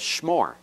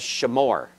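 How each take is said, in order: First: The first two consonants run together without a vowel. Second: A short vowel follows the first consonant. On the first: This is the modern pronunciation. "modern Hebrew says shmor, The schwa is totally silent" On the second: This is the classical pronunciation. "Classical Hebrew says shamor"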